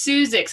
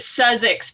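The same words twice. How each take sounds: First: The first syllable sounds like 'Seuss'. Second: The first syllable sounds like 'suss'. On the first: The speaker calls it right. "it's actually pronounced" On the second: The speaker calls it wrong. "lots of people pronounce it"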